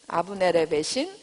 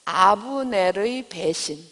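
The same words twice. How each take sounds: First: Said in the usual way. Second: Title spelled out very slowly for note-taking; slow dictation. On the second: Shown as a demonstration. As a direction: dictate each syllable slowly so they can write. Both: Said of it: "그리고 제목은".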